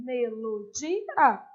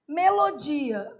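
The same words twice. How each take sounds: First: "Melodia" said slowly, ending low; slow clear repeat. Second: "Melodia" split into separate syllables, slowly. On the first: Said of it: "o final fica separadinho". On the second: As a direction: say "Melodia" slowly, stressing "di" and keeping the "a" apart. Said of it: "não tem acento no vizinho, o final fica separadinho". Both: Shown as a demonstration.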